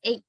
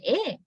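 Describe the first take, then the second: First: "A" as "ey", moving towards ee; gliding vowel. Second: "A" as a steady "eh", no glide; pure vowel. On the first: Teacher showing what dialects mostly use, gliding diphthong. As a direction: glide off the end of "A". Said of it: "There is a glide involving". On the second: Teacher showing the sound dialects sometimes have, pure vowel. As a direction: hold "A" in one tongue position. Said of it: "have no pure A". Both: Shown as a demonstration.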